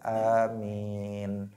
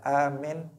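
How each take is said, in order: First: The vowel is drawn out long. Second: The vowel is said short. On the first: The speaker calls it right. "tetapi dibaca panjang" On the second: The speaker calls it wrong. "Jangan dibaca amin"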